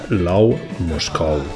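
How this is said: The name is said with a Valencian pronunciation.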